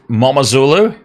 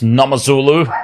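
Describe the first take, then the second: First: The name begins with an m sound. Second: The name begins with an n sound. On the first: "there's either a silent N G" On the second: "or it's a silent M"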